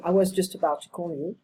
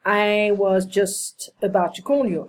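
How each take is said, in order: First: "I was just about to call you" said quickly, words run together; fast reduced repeat. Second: Said in the usual way. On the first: Shown as a demonstration. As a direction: rattle it off quicker and quieter. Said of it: "repeating, reduced fast". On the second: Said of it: "repeating the phrase".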